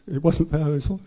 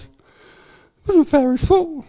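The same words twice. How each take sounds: First: It is said in a plain, normal voice. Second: It is said in an altered, put-on voice.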